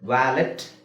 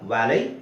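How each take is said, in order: First: The word ends with a sounded t. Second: The word ends without any t sound. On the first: The speaker calls it wrong. "ವ್ಯಾಲೆಟ್ ಅಲ್ಲ" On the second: The speaker calls it right.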